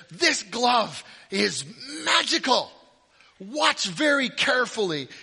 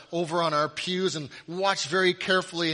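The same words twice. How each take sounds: First: Higher, louder stage-magician announcement; hammed-up magician. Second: Said in the usual way. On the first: Children's church magician hamming it up for the bored kids. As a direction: play the church magician hyping his glove to the kids. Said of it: "he says". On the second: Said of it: "us kids would all lean".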